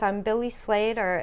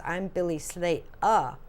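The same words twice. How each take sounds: First: Said in the usual way. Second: Slow, clipped English vowels, Slatuh with no r; English accent. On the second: Retold or imitated. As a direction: say Slater the English way, r dropped. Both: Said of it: "the way that he says it is".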